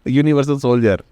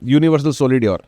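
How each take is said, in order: First: 'Soldier' is said normally with a 'j' sound. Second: 'Soldier' is said letter by letter as 'solidier'. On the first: The speaker calls it right. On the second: The speaker calls it wrong.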